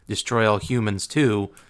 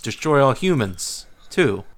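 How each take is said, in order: First: Said flatly, running straight into the number. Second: 'Humans' is exclaimed, with a break before 'two'. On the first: The speaker calls it wrong. "It's not" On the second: The speaker calls it right. "there's an exclamation point in there before the 2"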